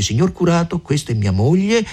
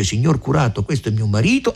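First: The man's words. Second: The woman's words. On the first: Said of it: "L'uomo dice". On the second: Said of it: "la donna dice". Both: Retold or imitated.

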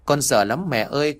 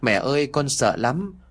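First: A hint of a crying child, pitched a little up; understated teary repeat of the plea; whimpering through tears. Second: Lightly voiced crying child, a touch higher; mock sobbing plea, understated; whimpering through tears. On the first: The boy repeats his fear to mom, lightly tearful. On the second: A frightened son whimpers to his mother, mildly teary. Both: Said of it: "Vừa khóc nó vừa nói mếu máo".

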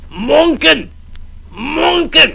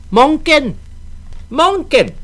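First: High loud call at the door; drunken shouting. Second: High mocking shout of a child; shouted taunt. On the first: Acted. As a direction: bang and yell his name. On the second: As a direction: yell his name to tease him.

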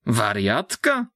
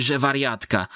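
First: Slow, disbelieving rising question; stunned question. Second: Said in the usual way. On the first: Acted. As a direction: echo the word in shock. Man shocked by the news. (zdumione, powolne pytanie)

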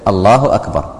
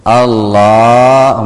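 First: Said in the usual way. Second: Stretching the word الله very long and slow; mock imam drawn out. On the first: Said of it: "السنة أن تقول إيش". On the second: Shown as a demonstration. Mocking an imam who drags out الله. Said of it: "فخطأ بعض الأئمة".

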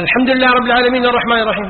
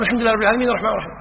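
First: Fast, higher recitation; imam reciting. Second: Rushed follow-along. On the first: Teacher voicing an imam who rushes the Fatiha, fast. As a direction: race through the verses. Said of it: "قال". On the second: Teacher showing the worshipper racing to keep up. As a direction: hurry right behind him. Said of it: "تقول". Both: Shown as a demonstration.

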